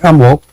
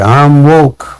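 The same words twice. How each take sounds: First: It is said plainly without extra emphasis. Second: It is said louder with strong emphasis. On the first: The speaker is already aware. "I could simply say I'm woke" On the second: The speaker really knows what is going on. "That's different from just saying I'm woke"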